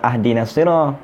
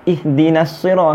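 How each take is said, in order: First: The first word begins with an a vowel. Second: The first word begins with an i vowel. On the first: The speaker calls it wrong. "kenapa tak baca uh, ahdinas sirah" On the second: The speaker calls it right.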